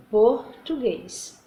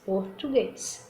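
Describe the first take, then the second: First: "português" with closed vowels, very slow; closed sound. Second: "português" with the weak open vowel, slow and soft; the version to avoid in the standard, softly; open weak sound. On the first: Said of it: "O som fechado". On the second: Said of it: "não português". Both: Shown as a demonstration.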